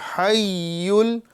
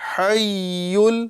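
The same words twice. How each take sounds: First: The doubled consonant sounds soft, like y. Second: The same.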